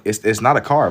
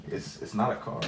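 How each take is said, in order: First: Said in the usual way. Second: Breathy whispered repeat, very soft. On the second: Real, not acted. Streamer to his chat, repeating it in a whisper. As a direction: whisper it as a muttered aside.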